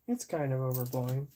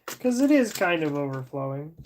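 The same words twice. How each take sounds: First: Softer repeat, under the breath; quiet mutter. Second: Said in the usual way. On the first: Real, not acted. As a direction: mutter it again to yourself.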